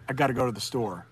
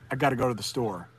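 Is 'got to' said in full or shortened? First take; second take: shortened; shortened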